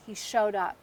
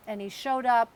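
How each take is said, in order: First: Said in the usual way. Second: Up lifted and louder, leaned on; stress on showed up. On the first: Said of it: "and he showed up exponentially". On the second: Real, not acted. Telling her listeners about her dad, stressing showed up. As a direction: press the words showed up harder the second time.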